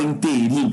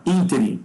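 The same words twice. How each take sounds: First: "interim" stressed on the last syllable, RIM; wrong stress inteRIM. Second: "interim" stressed on the first syllable, IN; correct stress ÍNterim. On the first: Teacher showing what not to say, inteRIM stressed last. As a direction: say "interim" with the beat at the end. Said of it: "Você não fala interim". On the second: Teacher showing how to say it, ÍNterim stressed first. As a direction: punch the opening of "interim". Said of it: "você fala interim". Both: Shown as a demonstration.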